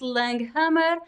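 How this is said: The name is said with a Brazilian Portuguese pronunciation. This is how it is said in Brazil. "In Brazil, I pronounce"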